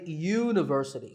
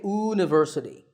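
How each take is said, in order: First: The word starts with a y sound. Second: The word starts with a plain vowel sound. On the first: The speaker calls it right. "So that first sound is a y sound" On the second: The speaker calls it wrong. "We don't say university"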